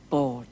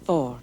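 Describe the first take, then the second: First: The word begins with a b sound. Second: The word begins with a v sound. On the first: It means on a table. "without aspiration" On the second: It means on the table. "board becomes vord"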